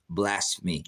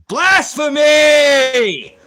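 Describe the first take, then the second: First: Said in the usual way. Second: Very high, drawn-out shout; full-force screamed denunciation, every syllable stretched; thundering accusation. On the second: Real, not acted. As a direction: bellow it long and high at the offender. Accusing a chatter of blasphemy.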